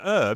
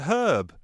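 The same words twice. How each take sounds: First: The word starts with a vowel, H silent. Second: The word starts with a pronounced H sound. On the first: The speaker calls it wrong. "It's not an herb, is it?" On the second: The speaker calls it right. "It's a herb. what's wrong with pronouncing that H?"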